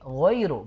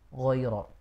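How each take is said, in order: First: The word ends in a clear u vowel. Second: The word ends in an o-like vowel. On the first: The speaker calls it right. "Jadi ghairu" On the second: The speaker calls it wrong. "bukan ghairo"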